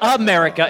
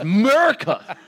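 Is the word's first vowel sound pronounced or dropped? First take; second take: pronounced; dropped. First: The opening vowel sound is pronounced. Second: The opening vowel sound is dropped. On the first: The speaker calls it wrong. "It's not America" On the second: The speaker calls it right. "It's Merica"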